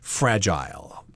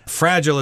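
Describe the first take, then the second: First: It is said with a non-American pronunciation. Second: It is said with an American pronunciation. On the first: "I think in other countries they say fragile" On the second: "Fragile is the American pronunciation"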